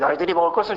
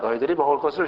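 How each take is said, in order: First: It is said forcefully and loudly. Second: It is said gently and softly. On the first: It is a stern command. The speaker calls it wrong. "강하게, 막 세게" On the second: It is a kind, smiling invitation. The speaker calls it right. "부드럽게"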